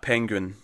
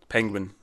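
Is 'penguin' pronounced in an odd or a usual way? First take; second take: odd; usual. First: Penguin is pronounced oddly, following its spelling. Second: Penguin is pronounced in the usual everyday way. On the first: The speaker calls it wrong. "that was a weird pronunciation of penguin" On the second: The speaker calls it right. "Penguin, rather"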